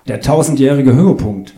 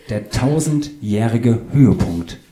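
First: Louder, higher Höhepunkt in one brisk run; announcing a title. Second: Slow, spaced-out tausendjährige Höhepunkt; patient repetition. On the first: Author gives in and names his novel, loud announcement. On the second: Author repeats title for puzzled Claudius, slow and distinct. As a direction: spell it out slowly, word by word. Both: Acted.

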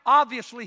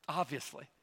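First: Emphatic. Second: Obviously said low and soft, almost to himself; soft aside. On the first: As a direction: Obviously hit loud and high. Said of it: "Do you know why?". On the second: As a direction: drop Obviously to a quiet murmur. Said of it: "Obviously, I will be with thee". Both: Shown as a demonstration.

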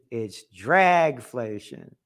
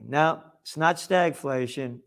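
First: Dragflation drawn out low and slow, drag stretched; stress on drag. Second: Said in the usual way. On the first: Shown as a demonstration. Commentator punning, stretching dragflation low and slow. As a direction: lean hard into the word dragflation, slow and low. Wordplay contrast stag vs drag.

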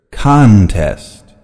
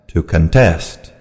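First: Contest stressed on the first syllable, CON-test. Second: Contest stressed on the second syllable, con-TEST. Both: Shown as a demonstration. Noun and verb stress drill.

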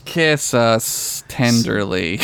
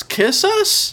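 First: Slow, drawn-out, hammed-up tenderness; mock tender. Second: Squeaky, incredulous question on the last request; high questioning squeak. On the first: Co-host finishing the sign-off plea, mock tender. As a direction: linger on each word as if sweetly pleading. Co-host answers squeaked question. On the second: Pretend. Podcast host ending a list of pleas, high questioning squeak. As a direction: leap way up high, rising. Mock surprise in sign-off list.

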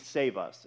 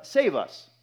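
First: Said in the usual way. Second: Higher, louder plea of save us; cry for help. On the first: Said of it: "In the full Hebrew, it means". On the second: Retold or imitated. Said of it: "it was a cry out to the Lord".

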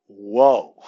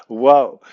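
First: Loud, drawn-out whoa of amazement; amazed whoa. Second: A louder whoa with a laugh in it. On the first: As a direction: let the whoa fall, impressed. Amazed watching players run court. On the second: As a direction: relive the amazement, laughing. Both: Retold or imitated.

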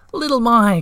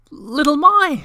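First: High, loud cry of a name; happy cry. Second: High, loud delighted cry of a name; joyful shout. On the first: Moomintroll greeting Little My, crying out happily. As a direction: cry her name out again in delight. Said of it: "cried Moomintroll once again". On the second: Moomintroll spotting Little My in the snow, shouting with joy. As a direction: call out her name, overjoyed. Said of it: "shouted Moomintroll". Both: A narrator's reading.

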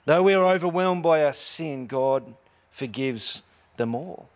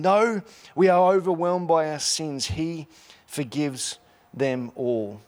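First: God forgives them all said slowly; slow emphatic close. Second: Forgives them all drawn out slowly; slow emphatic close. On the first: Same line repeated as refrain. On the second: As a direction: quotes the line, slowing at the end. Quoted line, slowed ending. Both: Shown as a demonstration.

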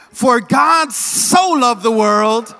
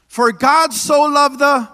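First: Slow, joyful loud recital. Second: Slow, loud prompt for the crowd; leading a call. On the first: Congregation retrying the verse with joy, slow and loud. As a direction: say it with hope and excitement. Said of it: "With some excitement, with some hope". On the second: Preacher prompting congregation to recite, slow and loud. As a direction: lead them in, slowly. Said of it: "Can y'all say this?". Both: Shown as a demonstration.

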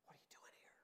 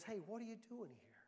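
First: Breathy whisper, almost no voice; a still small voice's hushed whisper. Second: Still small voice. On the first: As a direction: whisper it like a secret from God. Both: Retold or imitated. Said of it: "A still small voice that says".

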